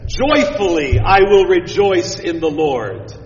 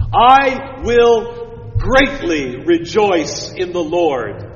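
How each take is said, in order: First: JOYFULLY given a strong opening push; more emphatic. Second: Slow, weighty, stretched words; slow solemn reading. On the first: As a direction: lean hard on "Joyfully" at the start. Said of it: "In the Hebrew, it's more like this". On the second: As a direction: read it slow and grand, word by word. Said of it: "it's even more emphatic than that". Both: Shown as a demonstration.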